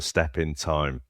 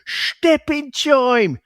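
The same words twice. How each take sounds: First: Said in the usual way. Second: Very high, drawn-out mangled Cockney, TIME as "choim". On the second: Retold or imitated. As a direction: squawk out a hammed-up bad Cockney impersonation. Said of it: "the way he delivers it is just like".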